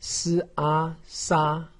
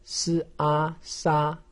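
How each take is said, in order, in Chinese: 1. 音高保持高而平。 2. 音高保持高而平。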